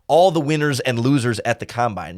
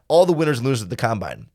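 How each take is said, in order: First: The phrase is spoken at a slow pace. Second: The phrase is spoken at a fast pace.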